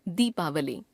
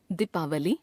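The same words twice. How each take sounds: First: Said in the usual way. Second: दीपावली with short first इ, rising; wrong pronunciation. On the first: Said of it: "शुद्ध". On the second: Shown as a demonstration. Teacher showing a common error, दीपावली with short first vowel. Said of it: "अशुद्ध".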